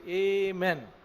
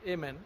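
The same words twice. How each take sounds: First: It begins with an 'ay' sound, like 'ay-men'. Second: It begins with an 'ah' sound, like 'ah-meen'. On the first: This is one preacher's personal habit. "he used to say amen" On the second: This is the usual way people say it. "Normally we say amen"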